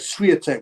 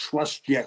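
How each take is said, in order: First: It is said as the English spelling suggests. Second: It is said with a Polish-style pronunciation. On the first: The speaker calls it wrong. "it reads like" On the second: The speaker calls it right. "it's actually pronounced"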